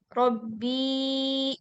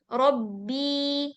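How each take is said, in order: First: The final vowel is held for three or more beats. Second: The final vowel is held for two beats. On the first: The speaker calls it wrong. "Jadi jangan Robbi ini gitu" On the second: The speaker calls it right. "Bi, dua harokat"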